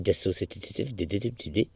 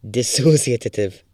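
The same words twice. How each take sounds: First: "Dissociative" said slowly, quietly, with stuttered extra t-d syllables; stumbling pronunciation. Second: Said in the usual way. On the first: Real, not acted. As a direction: trip over the syllables of "Dissociative". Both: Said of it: "is that how you say it?".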